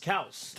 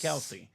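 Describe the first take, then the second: First: The name ends after the s sound. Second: The name ends with an added ee sound. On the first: This is how the family says its name. The speaker calls it right. "their name is Kels" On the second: This is how everyone else has been saying it. The speaker calls it wrong. "not Kelsey"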